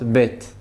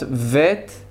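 First: The word begins with a b sound. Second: The word begins with a v sound. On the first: "והיא יכולה להיות בית" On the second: "היא יכולה להיות וית"

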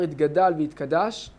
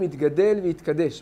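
First: The last vowel of each word sounds like 'a'. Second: The last vowel of each word sounds like 'e'. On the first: "לא אומרים את זה בצרה" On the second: "בצרה"

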